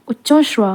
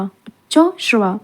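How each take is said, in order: First: Said in the usual way. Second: Uchchaishravas slowly, split as उच्चो, श्रवा; slow, broken up. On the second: Shown as a demonstration. Teacher dictating a spelling word, slowly in parts. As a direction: draw Uchchaishravas out in two separate parts.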